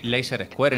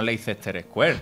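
First: Leicester is said with two syllables. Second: Leicester is said with three syllables. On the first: The speaker calls it right. "Y Leicester Square" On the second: The speaker calls it wrong. "y no Leicester Square"

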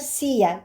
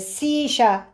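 First: The double L sounds like 'y'. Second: The double L sounds like 'sh'. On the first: "Ama İspanya'daki okunuş arkadaşlar siya, y sesini veriyor" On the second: "Güney Amerika'da da daha çok ŞC arası"

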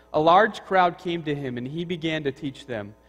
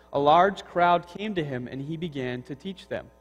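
Both takes have the same delivery.

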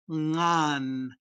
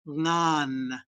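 The two takes are said the same way.

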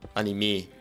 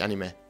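First: The stress is on the final syllable. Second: The stress is on the first syllable. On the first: The speaker calls it right. "auf der E betont" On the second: The speaker calls it wrong. "Nicht Anime"

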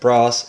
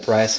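First: The word has a non-American pronunciation. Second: The word has an American pronunciation.

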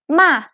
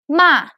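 The two takes are said the same way.

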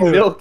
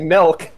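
First: The word is said without a Midwestern accent. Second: The word is said with a Midwestern accent. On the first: "You don't say milk" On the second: "She's Midwestern. ... you say milk"

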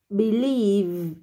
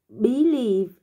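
First: The stress is on the second syllable. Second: The stress is on the first syllable. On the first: The speaker calls it right. "mà là believe" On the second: The speaker calls it wrong. "Không đọc là believe"

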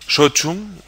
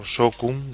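First: The middle consonant is a ch sound. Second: The middle consonant is a hard k sound. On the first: This is how it is actually said. The speaker calls it right. "pero Sochum" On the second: This is how the speaker assumed it was said. The speaker calls it wrong. "que pensaba que se pronunciaba así"

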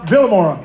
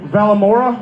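First: The first vowel sounds like 'ih'. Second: The first vowel sounds like 'ah'. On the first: The speaker calls it right. "my bad" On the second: The speaker calls it wrong. "Did I say that right?"

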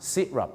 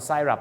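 First: It begins with 'si'. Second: It begins with 'sai'. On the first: The speaker calls it right. "ที่จริงแล้วมันต้องออกเสียงว่าซิรัป" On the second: The speaker calls it wrong. "คุณก็พูดไซรัป"

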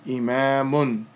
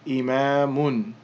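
First: The word ends with a final -un sound. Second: The same.

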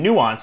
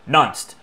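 First: The word begins with two vowels, new-ah. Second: The word begins with a short 'nun' sound. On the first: The speaker calls it right. "instead of saying nuanced" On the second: The speaker calls it wrong. "it might say nunced"

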